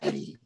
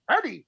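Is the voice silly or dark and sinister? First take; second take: dark, sinister; silly. First: It is said in a dark, sinister voice. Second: It is said in a silly, goofy voice.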